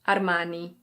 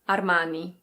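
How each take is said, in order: First: It is said with an Italian pronunciation. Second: The same.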